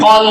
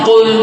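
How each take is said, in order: First: The vowel is an open 'o' sound. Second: The vowel is a rounded 'u' sound. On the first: The speaker calls it wrong. "কল নয়" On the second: The speaker calls it right. "ঠোঁট গোল করে কুল"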